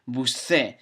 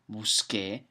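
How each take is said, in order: First: The consonant before the final vowel is not K. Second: The consonant before the final vowel is a K. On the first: The speaker calls it wrong. "you'll have to read it busce, the way you write it" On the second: The speaker calls it right. "the sound K is not C E, it's Q U E"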